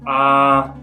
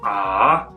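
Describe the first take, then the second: First: The pitch stays level and steady. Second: The pitch dips low, then rises. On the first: "the first tone, the straight line" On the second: "it kind of dips in pitch before rising in pitch"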